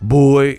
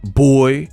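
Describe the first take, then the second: First: The word is said in a contemptuous, belittling tone. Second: The word is said in a contemptuous, belittling tone.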